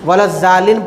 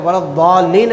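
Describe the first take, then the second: First: The middle consonant is a plain, light z. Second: The middle consonant is a heavy, emphatic sound. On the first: The speaker calls it wrong. "जा से पढ़ते" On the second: The speaker calls it right. "ज़ौ से पढ़ना है वो"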